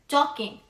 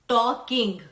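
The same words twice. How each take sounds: First: The final G is said very softly. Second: The final G is said strongly and clearly. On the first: The speaker calls it right. "this word will become talking" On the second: The speaker calls it wrong. "not talking, gung"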